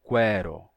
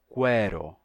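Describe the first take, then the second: The two takes are said the same way.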